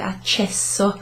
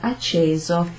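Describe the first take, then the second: First: The middle consonant is a long hissing s. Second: The middle consonant is a single z sound. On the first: The speaker calls it wrong. "we don't pronounce it accesso" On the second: The speaker calls it right. "a z kind of sound"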